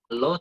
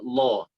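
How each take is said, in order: First: The syllable sounds light and thin. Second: The syllable sounds heavy and deep. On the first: It is the everyday local pronunciation. The speaker calls it wrong. "kalau lo itu ya bahasa Indonesia aja" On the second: It is the proper recitation pronunciation. The speaker calls it right. "dibaca tebal"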